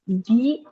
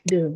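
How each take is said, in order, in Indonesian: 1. Kata ini diucapkan dengan vokal 'ee' panjang. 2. Kata ini diucapkan dengan vokal 'uh' pendek. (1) "Maka ini dibaca di activity" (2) "The money itu pakai the"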